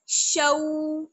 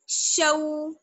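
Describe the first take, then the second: The two takes are said the same way.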